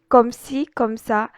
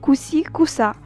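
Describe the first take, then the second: First: Each word is said in full, unreduced. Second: The words are clipped into a short slang form.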